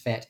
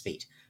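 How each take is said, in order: First: The vowel is a short 'eh' sound. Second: The vowel is a long 'ee' sound. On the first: This is how it is said in the UK. "in the UK it's fet" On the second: This is how it is said in the US. "in the US it's feet"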